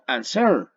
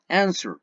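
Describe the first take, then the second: First: The stress is on the second syllable. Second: The stress is on the first syllable. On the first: The speaker calls it wrong. "No digo answer" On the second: The speaker calls it right. "digo answer"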